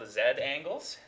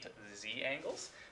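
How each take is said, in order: First: The letter is said the non-American way, zed. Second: The letter is said the American way, zee.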